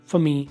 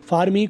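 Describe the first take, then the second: First: The word 'for' has a reduced vowel. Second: The word 'for' has a full vowel.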